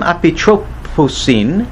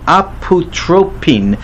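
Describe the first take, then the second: First: An s sound comes before the final syllable. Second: No s sound comes before the final syllable. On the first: The speaker calls it wrong. "I'm sorry, I pronounced it wrong" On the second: The speaker calls it right. "it lost the final S sound"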